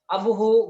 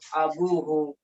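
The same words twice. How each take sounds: First: The vowel after the b is short. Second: The vowel after the b is long. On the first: The speaker calls it wrong. "Bukan abuhu, bukan gitu" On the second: The speaker calls it right. "tapi ada ditambah wawu"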